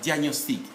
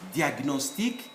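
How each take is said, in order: First: The 'gn' is blended into a 'ny' sound. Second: The 'gn' is said as separate g and n. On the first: The speaker calls it wrong. "not diagnostic" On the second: The speaker calls it right. "these must be pronounced"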